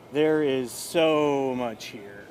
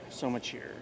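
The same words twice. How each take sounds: First: Slow, weighty, every word stretched; drawn-out emphasis. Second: Much softer, falling trailing repeat; soft echo. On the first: Host stressing how much the show holds, slowly. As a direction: lean hard into each word. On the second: Host quietly repeating himself to viewers. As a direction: drop it to an aside. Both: Real, not acted.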